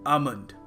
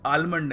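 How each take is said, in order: First: The L sound is silent. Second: The L sound is pronounced. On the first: The speaker calls it right. "एल है, इसको हमें pronounce करने की आवश्यकता नहीं है" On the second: The speaker calls it wrong. "सो हम इसको आलमंड नहीं कहेंगे"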